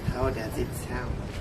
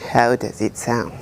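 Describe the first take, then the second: First: The voice sounds distant, with surrounding room noise. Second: The voice sounds close and direct, little room noise. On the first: "without Boya M one" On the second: "with Boya M one"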